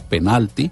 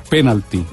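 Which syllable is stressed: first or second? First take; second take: second; first. First: The stress is on the second syllable. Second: The stress is on the first syllable. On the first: "palabra grave con el acento en la sílaba intermedia" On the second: "La palabra en inglés es esdrújula"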